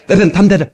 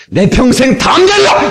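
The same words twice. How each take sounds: First: Said in the usual way. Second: High, forceful declaration; rousing battle-cry delivery; bold, with backbone. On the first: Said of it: "그 정도 가지고 담대는". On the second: Shown as a demonstration. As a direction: hit 담대하리라 high and rising with full conviction. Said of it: "이래야지".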